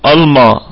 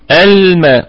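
First: The m is pronounced heavy and emphatic. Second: The m is pronounced light and thin. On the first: The speaker calls it wrong. "ممكن تسمع ميم واحد يقول إيه الما الما" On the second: The speaker calls it right. "لا، الماء الماء"

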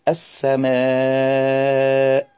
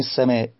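First: The voice stays on one steady level line. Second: The voice wavers and trembles through the word. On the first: "كأنه ماشي على خط واحد" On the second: "تلاقيه بيموج في الصوت"

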